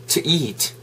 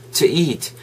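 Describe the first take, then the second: No difference in how they are said.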